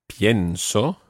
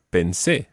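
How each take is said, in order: First: Pienso stressed on its first syllable, pien. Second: Pensé stressed on the final sé; stress on last syllable. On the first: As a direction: lean on the IE in pienso. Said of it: "The stress on the present tense is on the I E". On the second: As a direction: land the weight on the end of pensé. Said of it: "it's on the last syllable". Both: Shown as a demonstration.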